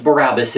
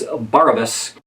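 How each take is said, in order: First: "Barabbas" with the stress on the middle syllable, ba-RAB-bas; wrong stress on Barabbas. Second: "Barabbas" said BAR-a-bas; first-syllable stress on Barabbas. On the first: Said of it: "It's not pronounced Barabbas". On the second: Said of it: "it's Barabbas". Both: Shown as a demonstration.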